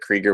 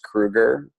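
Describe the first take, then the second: First: The first vowel is not an 'oo' sound. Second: The first vowel is an 'oo' sound. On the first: This is how the family says its own name. "my family pronounces it Krieger without the U" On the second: This is the usual pronunciation of the name. "should traditionally be pronounced Kruger"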